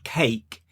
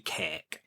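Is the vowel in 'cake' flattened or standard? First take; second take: standard; flattened. First: The vowel is a standard, unflattened A. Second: The vowel is a flattened, local A. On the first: This is how it is said elsewhere. "as you would say, perhaps in other parts of the world" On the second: This is how it is said locally. "we flatten the A here and we say cake"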